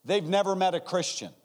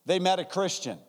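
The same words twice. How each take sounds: First: "never" hit high and loud, falling; stress on never. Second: "met" hit high and falling; stress on met. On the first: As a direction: lean hard into "never". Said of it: "Number one". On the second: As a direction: land the weight on "met". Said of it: "Number two". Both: Shown as a demonstration.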